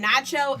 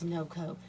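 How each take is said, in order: First: The name is said like the word nacho. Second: The name is said like no-ko. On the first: The speaker calls it wrong. "they're going to mispronounce my name" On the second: The speaker calls it right. "So my last name is [name]"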